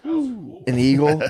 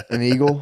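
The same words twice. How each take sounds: First: Slow, savoured "An eagle"; drawn out. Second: Said in the usual way. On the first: Shown as a demonstration. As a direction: stretch "An eagle" out slowly. Answering with a drawn-out word.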